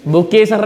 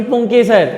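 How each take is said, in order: First: बुकेसर with b for p and no nasal; the wrong form बुकेसर, b-sound and nasal dropped; mispronounced word. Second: Said in the usual way. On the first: Shown as a demonstration. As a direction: say बुकेसर, starting on "bu" instead of "pun". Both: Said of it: "बुकेसर नहीं".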